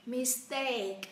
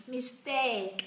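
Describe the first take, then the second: No difference in how they are said.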